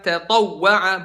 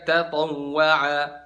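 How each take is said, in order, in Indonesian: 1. Huruf w ganda mendapat hentakan singkat dan tajam. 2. Huruf w ganda diucapkan datar, tanpa hentakan.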